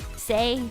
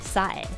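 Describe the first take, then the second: First: The name rhymes with the word 'day'. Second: The name rhymes with the word 'high'. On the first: The speaker calls it right. "Say, not Sai" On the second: The speaker calls it wrong. "I'm reading it like a Romaji"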